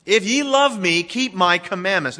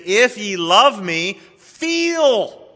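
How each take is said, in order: First: Firm stress on "keep"; preacher's firm correction; corrected quote. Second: Slow, with "feel" thrown up high in a swoon; gently mocking misquote; mock wrong version. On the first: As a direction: land hard on "keep". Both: Shown as a demonstration. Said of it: "He said, "Keep".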